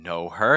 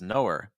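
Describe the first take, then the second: First: The H of her is clearly pronounced. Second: The H is dropped and the words run together. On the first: "instead of saying know her" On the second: "it becomes knower"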